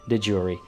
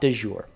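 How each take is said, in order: First: It is pronounced the English way. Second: It is pronounced with a French-style sound. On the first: The speaker calls it right. "the English adoption of it is is is de jure" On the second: The speaker calls it wrong. "It is not de jure. ... there is no French there"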